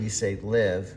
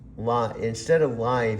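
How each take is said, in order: First: The vowel is short, rhyming with give. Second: The vowel is long, rhyming with five.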